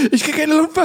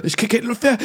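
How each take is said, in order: First: Noch höher und lauter, gesteigert; more panicky. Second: Hoch und atemlos; panisch, nach Luft ringend; panicky. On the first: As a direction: Panik steigt, fast schreiend. Repeated, higher and louder. (gesteigerte Panik, höher) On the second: Repeated panic line. (erste panische Wiederholung) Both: Retold or imitated.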